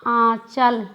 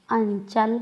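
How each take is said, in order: First: आंचल with the vowel nasalized, said short; nasal vowel demo. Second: अंचल with a full nasal consonant, drawn out; anusvara demo. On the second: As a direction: stretch अंचल through the nose, held longer. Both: Shown as a demonstration. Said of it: "उच्चारण करके देखिए".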